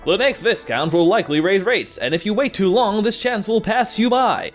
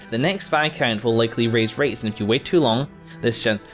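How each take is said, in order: First: It is read in a put-on character voice. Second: It is read in the speaker's normal voice.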